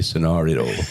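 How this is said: It is said in a British accent. "the U K may be scenario"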